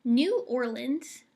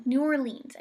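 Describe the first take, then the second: First: New Orleans said slowly as ɔɹləndz; wrong New Orleans. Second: New Orleans with Orleans as ɔɹlĩnz; right New Orleans. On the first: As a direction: stretch New Orleans, ending in ləndz. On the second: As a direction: correct it to New Orleans, ending in lĩnz. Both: Shown as a demonstration. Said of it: "no, New Orleans".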